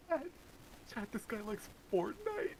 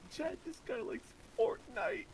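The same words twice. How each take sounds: First: Mocking voice. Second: High, slow goofy cartoon voice; squeaky silly cartoon character; cartoon giggle voice. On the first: Mocking a Fortnite fan. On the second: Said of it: "goofy cartoon giggle".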